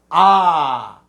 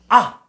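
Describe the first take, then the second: First: The vowel is held long. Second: The vowel is cut short.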